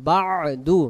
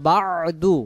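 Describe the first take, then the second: The two takes are said the same way.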